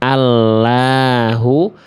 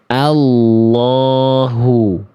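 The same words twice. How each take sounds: First: The L sounds thin and light. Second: The L is thick with the lips unrounded. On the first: The speaker calls it wrong. "jangan sampai dibaca tipis lamnya" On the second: The speaker calls it right. "Yang tepat insya Allah"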